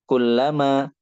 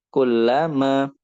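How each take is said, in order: First: "kullama" run together as one word; joined. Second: "kullama" slowly, as two words kulla and ma; slow "kullama" and set "ma" apart; separated. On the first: Teacher demonstrating how joined words sound, "kullama" connected. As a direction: link "kulla" straight into "ma". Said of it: "itu nyambung". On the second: Teacher demonstrating how separated words sound, "kullama" slowly split. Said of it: "dari suaranya pun juga terpisah". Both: Shown as a demonstration.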